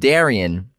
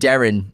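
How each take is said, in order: First: The name is said with three syllables. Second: The name is said with two syllables. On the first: The speaker calls it right. "but it's pronounced Darian" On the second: The speaker calls it wrong. "we keep saying Darren"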